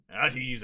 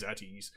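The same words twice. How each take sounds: First: Barked order, much louder; loud command. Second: Said in the usual way. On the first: Acted. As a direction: snap the guards out of attention. Captain commands the guards.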